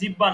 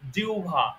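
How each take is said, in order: First: The word is said in the common colloquial form. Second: The word is said in the careful standard form. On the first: The speaker calls it wrong. "অনেকে আমরা জিহ্বা বলে থাকি, জিহ্বা না" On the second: The speaker calls it right. "ওটার শুদ্ধ উচ্চারণ হলো জিহ্বা"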